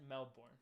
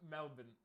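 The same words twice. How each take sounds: First: MELBOURNE in an American accent, full "born" ending; American-accented MELBOURNE, R sounded. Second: MELBOURNE said "MEL-bin", short weak ending; MELBOURNE without the R, "MEL-bun"; local pronunciation. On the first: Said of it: "American accent". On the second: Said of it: "It's Melbourne?". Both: Shown as a demonstration.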